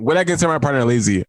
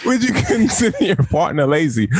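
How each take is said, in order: First: Said in the usual way. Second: Put-on high country-bumpkin accent with laughter; mock accent. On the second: Winding up the co-host with the question, mock accent. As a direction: keep up the bad accent, laughing. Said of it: "You fucking country bumpkin".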